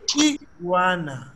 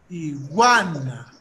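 First: The stress is on the first syllable. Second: The stress is on the second syllable. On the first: "En inglés, iguana. La fuerza de voz está en la I" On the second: "está la fuerza de voz en gua"

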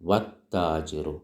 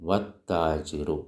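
Both takes have the same delivery.

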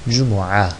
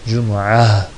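The two takes are said the same way.

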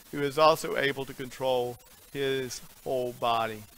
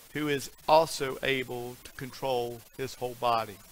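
No difference in how they are said.

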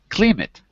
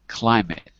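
First: The first vowel sounds like the 'ee' in 'sheep'. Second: The first vowel sounds like the 'eye' in 'lion'. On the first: The speaker calls it wrong. "Not climate, ... So it's not a green sheep" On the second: The speaker calls it right.

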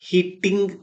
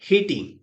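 First: The middle t is long and doubled. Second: The middle t is short and single. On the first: The speaker calls it wrong. "హిట్టింగ్ కాదు" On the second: The speaker calls it right. "హిటింగ్ అని పలకాలి"

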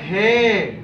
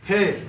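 First: The word is drawn out long. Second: The word is said short.

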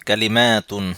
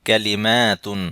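Both takes have the same delivery.

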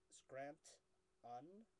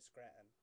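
First: The middle T is clearly pronounced. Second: The middle T is dropped. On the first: "It's Scrant-un" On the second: "but I just say Scranton"

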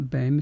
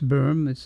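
First: The vowel is pronounced like 'ay'. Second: The vowel is a rounded 'er' sound. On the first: The speaker calls it wrong. "which people incorrectly pronounce BAME. It's not BAME" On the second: The speaker calls it right. "it's Berm. It's an umlaut O"

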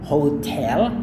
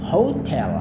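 First: The stress is on the second syllable. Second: The stress is on the first syllable.

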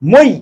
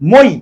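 First: The final vowel stops short and abruptly. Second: The final vowel stops short and abruptly.

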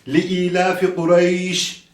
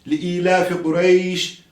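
No difference in how they are said.

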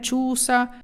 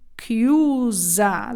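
First: The word starts with a ch sound. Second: The word starts with a k sound. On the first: The speaker calls it wrong. "Не чуса" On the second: The speaker calls it right. "Дивіться, як вимовляється"

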